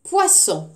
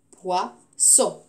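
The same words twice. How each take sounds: First: Said in the usual way. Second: Poisson split as POI, then SSON; syllable by syllable. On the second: Shown as a demonstration. Teacher counting syllables for pupils, Poisson split syllable by syllable. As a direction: say Poisson in two separate beats. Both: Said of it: "Deux syllabes".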